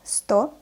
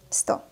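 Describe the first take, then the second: First: Careful, drawn-out "Sto"; slow reading. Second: Quick, short "Sto"; fast reading. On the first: Teacher models the word for beginners, "Sto" read slowly. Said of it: "I will read this word slowly". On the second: Teacher reads as a native speaker, "Sto" said fast. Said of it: "I will read this word fast". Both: Shown as a demonstration.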